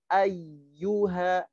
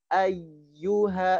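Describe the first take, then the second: Both takes have the same delivery.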